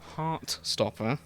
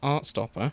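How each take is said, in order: First: The first word starts with an h sound. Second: The first word starts without an h sound. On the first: "say Heart Stopper with an H" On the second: "if you hear us talk about Art Stopper"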